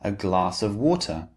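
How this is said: The T in water is clear and distinct. "So the T sound is very clear and distinct"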